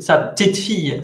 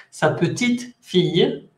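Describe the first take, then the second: First: "Sa petite fille" run together, leaning on "fille"; no pause, "petite" light and quick before "fille"; stress on fille. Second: "Sa petite ... fille" slowly, short pause before "fille". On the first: Teacher contrasting granddaughter with little daughter, "petite fille" run together. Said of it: "la entonación más importante está en fille". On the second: Teacher contrasting little daughter with granddaughter, pause before "fille". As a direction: stress "petite", pause briefly, then say "fille". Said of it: "una pequeña pausa muy corta". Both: Shown as a demonstration.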